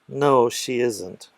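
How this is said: It sounds a little sad.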